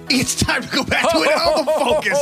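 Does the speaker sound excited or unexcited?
excited. The voice sounds lively and excited.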